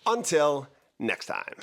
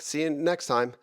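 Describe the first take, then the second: First: Hammy outro. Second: Said in the usual way. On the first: Shown as a demonstration. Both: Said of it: "Let's try that again".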